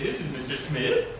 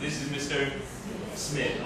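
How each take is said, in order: First: The pitch rises at the end. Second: The pitch falls at the end. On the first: The speaker calls it wrong. "you don't say" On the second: The speaker calls it right. "So it goes down again"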